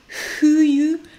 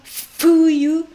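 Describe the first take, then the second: First: The first consonant is an H sound. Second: The first consonant is a clear F sound. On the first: "je ne dis pas non plus fuyu" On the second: "je ne dis pas un franchement fuyu"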